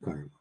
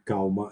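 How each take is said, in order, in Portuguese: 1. Tem um som de R antes do m. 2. Tem um som de L antes do m.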